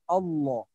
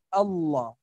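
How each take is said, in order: The two takes are said the same way.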